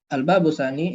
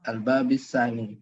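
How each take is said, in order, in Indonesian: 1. Kata bab diakhiri dengan vokal u. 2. Kata bab diakhiri dengan vokal i. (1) "ini adalah khobarnya" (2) "dibaca majrur"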